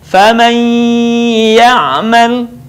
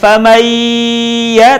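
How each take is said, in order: First: The sound is held and partly goes through the nose. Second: The sound is not held and stays out of the nose. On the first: The speaker calls it right. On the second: The speaker calls it wrong.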